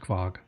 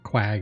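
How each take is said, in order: First: The name begins with a 'kv' sound. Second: The name begins with a 'kw' sound. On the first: The speaker calls it right. "but it's actually pronounced Kvog" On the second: The speaker calls it wrong. "or Quag if you want to say it that way"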